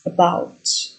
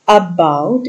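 First: The stress falls on the second syllable. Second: The stress falls on the first syllable. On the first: The speaker calls it right. "it's about, where the stress falls on the second syllable" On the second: The speaker calls it wrong. "you don't say it about"

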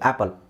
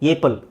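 First: The first vowel is a flat 'a' as in cat. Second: The first vowel is an 'ay' sound. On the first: The speaker calls it right. "ಅದು ಆ್ಯಪಲ್" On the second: The speaker calls it wrong. "ಏಪಲ್ ಆಗಬೇಕು"

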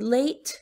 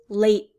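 First: The final T is clearly released. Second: The final T is held in, unreleased. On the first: "in the word late, you do hear the T" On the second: "you hear late, held in"

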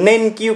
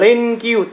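First: The first consonant is plain, without an L quality. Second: The first consonant leans toward an L sound. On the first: This is how it is usually heard. "từ denkyu các bạn thường được nghe thấy" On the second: This is how some regions say it. "có những cái vùng người ta đọc là denkyu, tức là người ta sẽ hướng đến cái âm L nhiều hơn"

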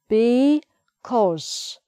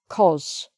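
First: The word is said in full, two syllables. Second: The word is said quickly, shortened to one syllable.

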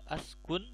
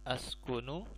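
First: The word ends on a consonant, no final vowel. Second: The word ends with a final vowel sound. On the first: The speaker calls it right. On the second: The speaker calls it wrong.

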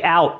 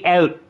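First: The word is said with a standard vowel. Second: The word is said with a Canadian vowel. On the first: This is how the speakers do not say it. "They don't say out" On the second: This is how the speakers actually say it. "They say out"

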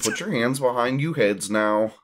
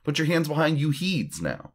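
First: The word before 'now' is said as 'heads'. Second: The word before 'now' is said as 'heeds'. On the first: The speaker calls it wrong. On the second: The speaker calls it right.

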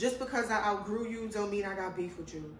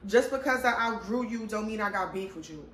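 First: The sentence is said at normal volume. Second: The sentence is said more loudly.

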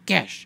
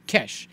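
First: The word is said with a Greek accent. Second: The same.

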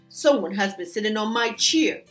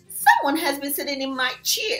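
First: It is grumbled in Papa Bear's voice. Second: It is squeaked in Baby Bear's voice.

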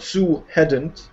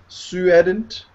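First: The H is pronounced and the words are not linked. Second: The H is dropped and a W sound links the words. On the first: The speaker calls it wrong. "Not Sue hadn't" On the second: The speaker calls it right. "The W sound"

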